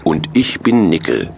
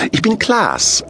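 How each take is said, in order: First: Fat Santa in a middle-pitched voice; Nickel. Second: Very high character voice; high-voiced thin Santa. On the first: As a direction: introduce yourself as the fat one. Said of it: "stellte sich der Dicke vor". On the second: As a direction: introduce yourself as the thin one, pitched way up. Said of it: "sagte der Dünne". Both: A narrator's reading.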